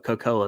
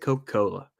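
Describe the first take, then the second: First: Part of the word is dropped, Southern style. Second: Every syllable of the word is fully pronounced.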